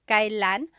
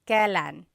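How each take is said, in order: First: The word is said in its full, formal form. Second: The word is said in its shortened, casual form. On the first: "it's pronounced kailan" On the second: "you will often hear it pronounced"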